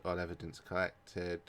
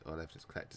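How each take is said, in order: First: Said in the usual way. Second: Much softer repeat to himself; quiet. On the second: Real, not acted. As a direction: murmur it under your breath.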